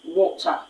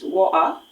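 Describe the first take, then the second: First: The middle t is clearly pronounced. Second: The middle t becomes a glottal stop. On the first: The speaker uses standard British English. "there's an emphatic stress on... the letter T" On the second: The speaker is from working-class London. "the letter T is swallowed... it is being replaced by a glottal stop"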